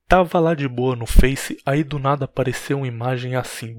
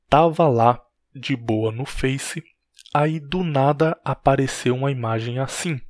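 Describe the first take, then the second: First: It is read quickly without pauses. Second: It is read slowly with pauses.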